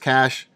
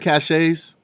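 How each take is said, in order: First: The word sounds just like 'cash'. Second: The word does not sound like 'cash'. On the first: The speaker calls it right. "I know it's cash" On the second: The speaker calls it wrong. "I'm saying caches"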